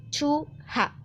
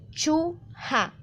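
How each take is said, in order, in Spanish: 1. Se oye un sonido h entre las dos sílabas. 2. Se oye un sonido h entre las dos sílabas.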